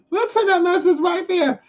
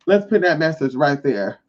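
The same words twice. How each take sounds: First: Squeaky, very high put-on repeat; mocking high voice. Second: Said in the usual way. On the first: Laughing at Larry's retracted message, mocking high voice.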